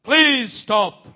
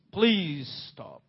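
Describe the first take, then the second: First: Raised, urgent plea to halt; urgent command. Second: Soft, lower repeat of a plea; hushed plea. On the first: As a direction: call out loudly to halt someone. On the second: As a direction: let the plea drop low and quiet. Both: Acted. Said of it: "the voice of the Lord came there".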